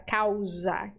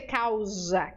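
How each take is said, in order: First: Causa with a clear unvoiced s; correct causa with s. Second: Causa said with a voiced z sound, like cauza; wrong causa with z. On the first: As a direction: causa said with a crisp s, never z. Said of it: "S é S". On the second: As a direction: causa pronounced Portuguese style, s buzzed as z. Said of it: "não dizer causa". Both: Shown as a demonstration.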